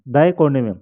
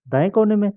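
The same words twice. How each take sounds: First: Said in the usual way. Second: Questioning echo pitched higher; surprised echo. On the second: Acted. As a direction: repeat it back in disbelief. Echoes the directions as a question.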